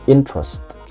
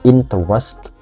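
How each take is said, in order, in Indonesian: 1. Satu bunyi dalam kata itu dihilangkan. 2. Setiap bunyi dalam kata itu diucapkan. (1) "menghilangkan satu suara" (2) "bukan interest"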